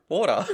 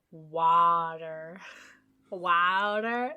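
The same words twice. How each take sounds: First: Water said the Australian way, wor-tuh with no r. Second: Water in an American accent, wah-der with a flapped d and r. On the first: Australian co-host showing his own Water. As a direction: say Water with the open aw and dropped r. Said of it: "how do you say water". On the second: Co-host tries the American way to say Water. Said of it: "Like American". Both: Shown as a demonstration.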